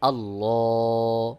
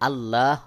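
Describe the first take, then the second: First: The L sound is said heavy and thick. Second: The L sound is said light and thin. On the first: The speaker calls it right. "এই জন্য আমি এখানে আল্লাহ বলেছি।" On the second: The speaker calls it wrong. "এখানে আল্লাহ হবে না।"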